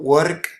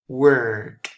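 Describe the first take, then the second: First: The vowel is not a long vowel. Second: The vowel is long and drawn out. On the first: The speaker calls it wrong. "It's not work" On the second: The speaker calls it right. "It's like a long E"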